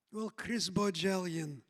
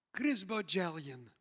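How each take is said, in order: First: Lightly voiced Israeli therapist, dry and lower; a hint of Israeli accent, mock stern; imitated Israeli accent. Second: Lightly voiced Israeli therapist, low and blunt; a hint of Israeli accent, spelling out his full name; imitated Israeli accent. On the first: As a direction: address him by full name like a drill sergeant. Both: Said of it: "She said to me".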